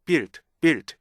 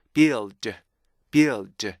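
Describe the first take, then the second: First: "build" squashed into a single short syllable; wrong short build. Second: "build" with the L held as its own beat; stretched build. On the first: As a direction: BUILD as one quick clipped beat, L not held. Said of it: "이렇게 읽는 게 아니고요". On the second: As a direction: BUILD drawn out with a long L before the D. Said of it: "이렇게 읽어주셔야 돼요". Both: Shown as a demonstration.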